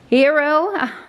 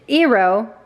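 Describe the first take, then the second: First: The word starts with an h sound. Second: The word starts without an h sound. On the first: The speaker calls it wrong. "try as I may to pronounce that" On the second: The speaker calls it right. "It's hero without the H"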